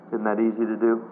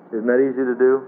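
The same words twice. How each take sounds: First: Said in the usual way. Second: "do" lifted into a rising question, a bit louder; louder repeat. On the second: Shown as a demonstration. Preacher repeats the question to the church, louder with a rise. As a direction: press the congregation, rising on "do".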